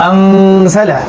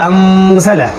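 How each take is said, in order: The two takes are said the same way.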